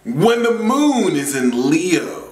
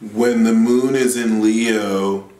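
First: The voice is lively with lots of energy. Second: The voice is flat with little energy. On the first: The speaker calls it right. "Give them some life" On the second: The speaker calls it wrong. "There is no life in your voice"

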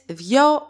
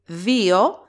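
First: The word is said as a single syllable. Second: The word has two syllables, stressed on the first. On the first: "Second case, δυο, one syllable, no accent" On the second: "First case, two syllables, an accent on ypsilon"

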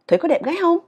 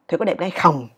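First: It is asked with lively feeling. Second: It is asked flatly, without feeling.

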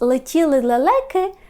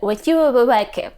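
First: The l sounds are clear l sounds. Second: The l sounds are said like w. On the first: "замість «летіли лелеки»" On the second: "дитина, яка потребує трішки допомоги лікаря, скаже"

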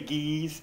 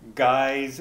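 First: Guy's is said another, less common way. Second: Guy's is said the common English way. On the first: The speaker calls it wrong. "I always say Guy's, and people give me a hard time about it" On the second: The speaker calls it right. "I'm going to pronounce it right this time"

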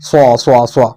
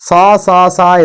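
First: The s sound is heavy and fills the mouth. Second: The s sound is light and thin. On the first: The speaker calls it right. "വായൽ മുഴുവനും കാറ്റ് നിറച്ചതുപോലെ പറയാം" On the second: The speaker calls it wrong. "സാ സാ സാ എന്ന് പറയരുത്"

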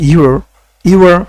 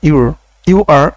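The two takes are said the same way.

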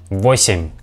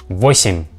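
The two takes are said the same way.

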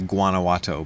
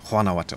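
First: The name is said with an English-style pronunciation. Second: The name is said with a Spanish-style pronunciation. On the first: The speaker calls it wrong. "I would say Guanajuato, but I don't think that's the right way to pronounce it" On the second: The speaker calls it right. "I think it's pronounced that way"

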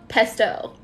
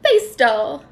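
First: The first vowel sounds like short 'eh'. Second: The first vowel sounds like 'ay'. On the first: The speaker calls it wrong. "That doesn't bring joy to anybody" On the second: The speaker calls it right. "not an A sound, but a E-I sound"

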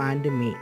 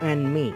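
Both takes have the same delivery.

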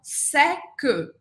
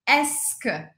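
First: The word begins with an s sound. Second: The word begins with an e vowel. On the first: The speaker calls it wrong. "Não é o som seque" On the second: The speaker calls it right. "Começa com E"

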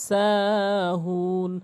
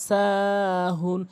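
The two takes are said the same way.

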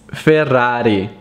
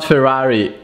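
First: The name is said with an Italian pronunciation. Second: The name is said with an American English pronunciation. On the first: The speaker calls it right. "it's Ferrari" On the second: The speaker calls it wrong. "It's not Ferrari"

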